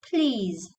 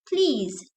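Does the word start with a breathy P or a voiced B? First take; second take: voiced B; breathy P. First: It starts with a voiced B sound. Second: It starts with a breathy, voiceless P sound. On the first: The speaker calls it wrong. "not please" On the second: The speaker calls it right. "use air like hums when you pronounce these and say please"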